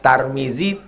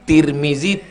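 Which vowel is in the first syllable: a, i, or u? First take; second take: a; i. First: The first syllable has an a vowel. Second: The first syllable has an i vowel.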